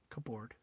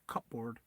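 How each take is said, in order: First: It is said in a Filipino accent, sounding the p. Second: The same.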